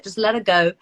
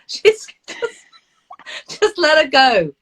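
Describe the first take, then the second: First: Said in the usual way. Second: Louder, higher mock exasperation; imitating husband. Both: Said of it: "I always can hear my husband saying".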